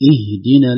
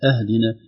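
First: The first vowel is an i sound. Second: The first vowel is not an i sound. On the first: The speaker calls it right. "بكسر الهمزة" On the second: The speaker calls it wrong. "ليست اهدنا"

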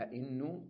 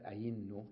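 First: A second glottal stop follows the first. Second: A long y-like vowel follows the first glottal stop.

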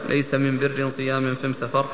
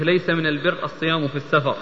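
First: The definite article is pronounced as am. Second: The definite article is pronounced as al. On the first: "يجعلون الألف واللام يعني بدلها ميم" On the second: "تكلم به بلغة قريش"

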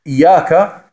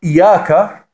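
The two takes are said the same way.

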